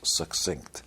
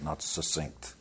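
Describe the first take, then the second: First: The middle has a k sound before the s. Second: The middle is a plain s sound, no k. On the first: The speaker calls it right. "It's like success" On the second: The speaker calls it wrong.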